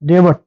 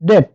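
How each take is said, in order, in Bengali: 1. t-এর আগে একটি b ধ্বনি শোনা যায়। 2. t-এর আগে কোনো b ধ্বনি শোনা যায় না। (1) "ডেবট যদি আমরা বলি সেক্ষেত্রে আমরা ভুল বলবো" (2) "এর সঠিক উচ্চারণ হচ্ছে ডেট"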